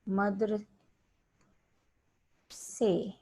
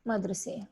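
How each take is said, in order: First: The word is split into two separate parts. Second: The word is said smoothly as one unit. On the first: The speaker calls it wrong. "मदर से मदर से नहीं बोला जाता" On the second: The speaker calls it right. "इसका एक word आपको proper होना चाहिए"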